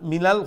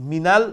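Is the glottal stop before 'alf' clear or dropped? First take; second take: dropped; dropped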